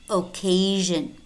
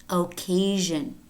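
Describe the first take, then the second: The two takes are said the same way.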